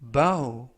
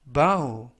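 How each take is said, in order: No difference in how they are said.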